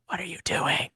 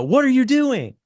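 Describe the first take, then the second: First: Soft, flat question; mild, soft ask; flat quiet version. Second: Much higher and louder, startled; high loud outburst on WHAT; exclaimed question. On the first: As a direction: say it softly and flatly, no drama. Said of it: "instead of it being like a". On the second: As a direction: shout it out in alarm, pitch up high. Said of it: "I want it to be a". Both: Shown as a demonstration.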